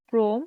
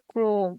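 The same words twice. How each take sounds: First: Said in the usual way. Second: Chrome said as ক্রোম্, a rounded o after the r; pronounced. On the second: Shown as a demonstration. Teacher modelling the sound of Chrome. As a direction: say Chrome crisply with an o. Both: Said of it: "এর উচ্চারণ হবে".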